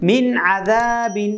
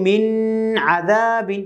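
First: "মিন আদাবিন" with a short clear n in মিন; clear, no ghunnah. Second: "মিন আদাবিন" with the n of মিন held in a long nasal hum; mistaken ghunnah. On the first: Teacher showing learners the rule, "মিন আদাবিন" clear without ghunnah. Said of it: "গুণনাবিহীন সুন্দর করে স্পষ্ট করে উচ্চারণ করে পড়ব". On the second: Teacher showing learners a mistake, "মিন আদাবিন" with a drawn-out humming n. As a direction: drag out the first n of "মিন আদাবিন". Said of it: "তাহলে কিন্তু এটা আমাদের ভুল হবে". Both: Shown as a demonstration.

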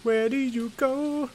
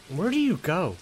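First: Much higher and slowed, drawn out; high slow silly voice. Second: Said in the usual way. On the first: Pretend. Asking the door where it goes, high slow goofy voice. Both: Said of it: "repeated in funny voice".

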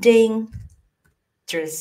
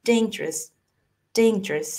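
First: "dangerous" as "dayng", long pause, "jrus"; slow teaching "dayng... jrus" for "dangerous"; broken in two. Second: "dangerous" run together as a short "dayn-jrus"; brief two-syllable "dangerous"; squeezed short. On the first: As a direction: split "dangerous" slowly into two separate halves. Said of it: "แต่เอาบีบเข้าไปอีกให้มันสั้น". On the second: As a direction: squeeze "dangerous" tight with no break. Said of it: "บีบเข้าไปอีกให้มันสั้น". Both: Shown as a demonstration.

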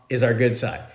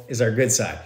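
Both takes have the same delivery.

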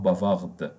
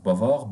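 First: "bavarde" with the final d sounded; slow "bavarde", voicing the closing d; final D pronounced. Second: "Bavard" with the final d left silent. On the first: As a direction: release a clear d at the end of "bavarde". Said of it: "it will be pronounced". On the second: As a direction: end "Bavard" on the r, no d sound. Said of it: "silent at the end of the word". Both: Shown as a demonstration.

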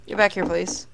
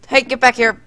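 First: Said in the usual way. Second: Loud sharp call, pitch up; shouting. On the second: Pretend. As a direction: yell it after someone walking off. Calling back a wandering guest.

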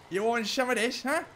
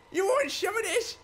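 First: Taunt. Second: Much higher, louder mocking challenge; shrill taunt. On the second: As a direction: goad the enemy, pitch leaping up. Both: Real, not acted. Taunting Hardy the enemy.

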